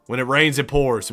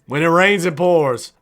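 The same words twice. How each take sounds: First: Said in the usual way. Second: Higher, louder hyped repeat; excited. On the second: Shown as a demonstration. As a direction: say it again with hype.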